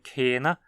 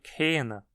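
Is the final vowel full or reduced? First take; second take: full; reduced. First: The final vowel is pronounced as a full vowel. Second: The final vowel is reduced to a weak sound. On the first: "como em Kena" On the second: "também costuma ser pronunciado Kena"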